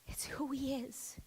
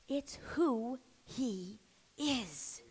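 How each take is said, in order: First: Whispered It's who he is. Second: Soft, slow, drawn-out it's who he is; hushed, slow emphasis; quiet and slow. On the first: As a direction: drop to a bare whisper. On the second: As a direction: let it sink in slowly. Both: Shown as a demonstration.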